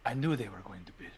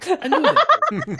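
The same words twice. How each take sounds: First: Hushed suspicion. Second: High, loud, slow laughing gloat; laughing triumph. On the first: Plotting betrayal, hushed confession. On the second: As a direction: crow it through laughter, much higher. Gleeful vindication, laughing. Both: Acted.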